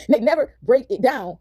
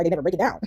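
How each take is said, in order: First: Drawn out at half speed, word by word; slow emphatic repeat. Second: Said in the usual way. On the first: Real, not acted. Hammering home to viewers what is never explained, slow and emphatic. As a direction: spell out "They never break it down" very slowly.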